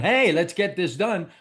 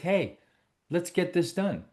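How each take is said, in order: First: It is said loudly and quickly, with force. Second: It is said softly and slowly, with less force. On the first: The speaker comes across as pushy and threatening. The speaker calls it wrong. "So I'm not going" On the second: The speaker gives the listener space and feels less threatening. The speaker calls it right. "I lower my voice... I slow down... It's softer"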